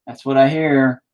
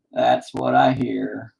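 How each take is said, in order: First: Said in the usual way. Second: That's what I hear drawn out slowly; slow repeat. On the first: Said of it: "repeated line". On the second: Shown as a demonstration. Repeating the joke slowly for the viewers. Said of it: "repeated line, slowed".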